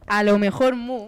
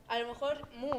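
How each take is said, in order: First: Much louder, slower repeat; boosted volume, drawn-out words; making sure it's heard. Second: Said in the usual way. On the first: Real, not acted. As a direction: say it loud and slowly into the mic. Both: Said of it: "Se escucha, se escucha".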